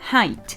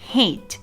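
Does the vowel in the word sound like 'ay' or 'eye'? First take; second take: eye; ay. First: The vowel sounds like 'eye' as in 'high'. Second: The vowel sounds like 'ay' as in 'day'. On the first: The speaker calls it right. "แต่ออกเสียงว่า" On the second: The speaker calls it wrong. "คำนี้เป็นข้อยกเว้นไม่ได้ออกเสียงว่า"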